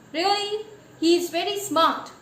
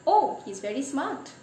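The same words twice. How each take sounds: First: A mocking, doubtful echo; sarcastic. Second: Said in the usual way. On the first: Real, not acted. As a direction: throw it back skeptically. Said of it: "you have confined your definition".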